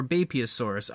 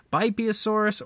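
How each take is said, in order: First: "Bapeosaurus" with first syllable like "bay"; alternative pronunciation. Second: "Bipeosaurus" with first syllable like "bye"; alternative pronunciation. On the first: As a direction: say "Bapeosaurus" opening on a BAY sound. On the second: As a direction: say "Bipeosaurus" opening on a BYE sound. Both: Shown as a demonstration. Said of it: "heard it pronounced two different ways".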